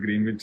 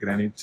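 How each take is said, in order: First: The middle 'w' is pronounced, as spelled. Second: The middle 'w' is silent, said 'Granich'. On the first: This is how the spelling reads. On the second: This is how the locals say it.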